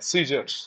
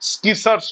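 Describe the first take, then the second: First: The word begins with a plain s sound. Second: The word begins with an sk sound. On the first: The speaker calls it right. "সিজার্স উচ্চারণটা" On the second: The speaker calls it wrong. "স্কিসার্স নয়"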